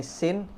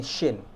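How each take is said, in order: First: "sin" with a clean thin s; higher, rising "sin"; ordinary S. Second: "shin" with a thick hushing sh; falling "shin" with full sh; shooing sh. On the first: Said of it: "Sin ini seperti ngomong S biasa". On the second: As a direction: start "shin" like shooing, then fall. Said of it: "kayak lagi ngusir ayam". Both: Shown as a demonstration.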